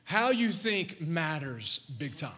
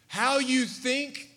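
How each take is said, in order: First: Slow, "you" pressed hardest; stress on you. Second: Slow, rising "How you think"; slow emphasis. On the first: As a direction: lean on "you" in "How you think matters big time". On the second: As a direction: drag out "How you think" and lift it at the end. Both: Shown as a demonstration. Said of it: "everybody look at me for a moment".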